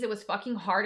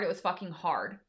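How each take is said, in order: First: Said in the usual way. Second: Quiet weary echo of the line; soft heavy repeat. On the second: Shown as a demonstration. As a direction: lower and softer, letting "hard" sink.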